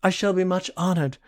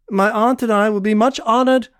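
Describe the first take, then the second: First: Said in the usual way. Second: Half mocking. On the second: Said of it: "half mocking, half formal".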